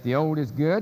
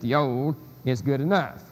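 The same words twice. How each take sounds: First: "good" stressed, with a rise at the end. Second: "enough" stressed after "good", falling. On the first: Lecturer arguing a different implication, "good" stressed. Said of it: "I'd like to submit that". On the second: Lecturer contrasting the implication, "enough" stressed. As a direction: add "enough" with weight and a fall. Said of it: "has an entirely different implication". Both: Shown as a demonstration.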